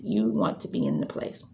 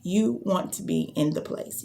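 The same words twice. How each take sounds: First: Said again much lower, settling down; dropped low. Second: Said in the usual way. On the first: Shown as a demonstration. Coach echoing her own post in a low voice. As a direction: bring the pitch way down on the repeat. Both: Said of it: "I kept talking about it on social media".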